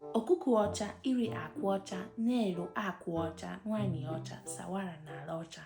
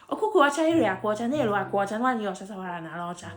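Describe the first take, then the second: First: It is said at a moderate pace. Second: It is said at a very fast pace.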